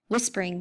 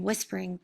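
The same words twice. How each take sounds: First: Said in the usual way. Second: Dropping much softer on the repeat; fading softer. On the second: A narrator's reading. Narrator echoing the monster's whispering, fading softer. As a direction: let the word fade away.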